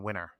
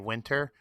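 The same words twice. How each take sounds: First: The T sound in the middle is dropped. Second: The T sound in the middle is pronounced.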